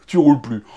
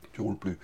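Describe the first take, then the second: First: Said in the usual way. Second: Much softer, muttered low echo of the punchline; quiet aside. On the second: Shown as a demonstration. Repeating the punchline to the viewers, muttered much softer. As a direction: drop it to a low aside under your breath.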